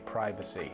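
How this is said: It is said with an American pronunciation. "That's what you guys say"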